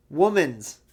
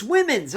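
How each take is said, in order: First: "Woman's" said slowly with "wo-man" as in a single woman, the mistaken form; mock the wrong "Woman's", drawn out slightly; saying woman's. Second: "women's" said with "wi-min", the proper plural; correct women's. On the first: Quoting Kalani's mispronunciation, slowly saying "Woman's". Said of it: "She does pronounce it women's". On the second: Shown as a demonstration. Correcting Kalani's word to the viewer, clearly saying "women's". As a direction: correct her: "women's" with a short i. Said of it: "It's women's".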